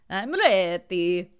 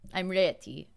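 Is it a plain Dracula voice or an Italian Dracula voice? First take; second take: Italian Dracula; Dracula. First: It is said in an Italian Dracula voice. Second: It is said in a Count Dracula voice.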